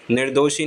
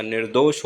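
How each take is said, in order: First: निर्दोषी as "nir-do-shee"; wrong i ending. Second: निर्दोष as "nir-dosh"; correct clean ending. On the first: Teacher showing the error, निर्दोषी with final "ee". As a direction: end निर्दोषी on a long ee. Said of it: "निर्दोषी नहीं होता". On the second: Teacher correcting it, निर्दोष ending on "sh". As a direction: stop निर्दोष on sh, no vowel. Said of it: "निर्दोष होता है". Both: Shown as a demonstration.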